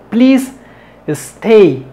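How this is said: There is a pause between the two words. The speaker calls it wrong. "Eso no lo hagas"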